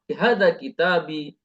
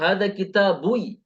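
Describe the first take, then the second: First: The word kitab ends with an 'i' vowel. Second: The word kitab ends with a 'u' vowel. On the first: The speaker calls it right. "memang harus kasrah" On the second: The speaker calls it wrong. "tidak dibaca lagi"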